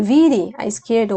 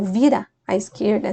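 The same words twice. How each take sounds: First: "vire" ending in a clear e sound; "vire" con e final; vire form. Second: "vira" ending in an open a; "vira" con a final; vira form. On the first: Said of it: "alguns dizem". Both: Shown as a demonstration.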